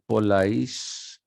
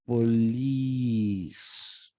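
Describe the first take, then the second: First: The word is said short, like English police. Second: The word is said with a stretched vowel. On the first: The speaker calls it wrong. "it's not police" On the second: The speaker calls it right. "It has to be pronounced police. You have to stretch police"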